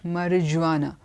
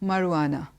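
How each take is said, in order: First: The J is pronounced as a J sound. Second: The J is not pronounced as a J sound. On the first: The speaker calls it wrong. "It's not marijuana" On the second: The speaker calls it right. "The J is not pronounced there. So it's marijuana"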